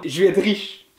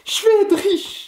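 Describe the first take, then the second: First: Said in the usual way. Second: High, excited exclamation; elated. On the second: Real, not acted. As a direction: burst out with joy at coming riches. Repeats it, thrilled by the prediction.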